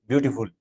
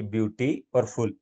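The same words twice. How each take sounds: First: beautiful run together as one word; quick, joined-up beautiful; said quickly together. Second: beauty and फुल said as two separate sounds; two distinct parts, beauty और फुल; split into syllables. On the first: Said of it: "चाहे कितना ही तेज बोलो". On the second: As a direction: break the word into beauty, then फुल. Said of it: "जब दो sound काम में ली गई". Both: Shown as a demonstration.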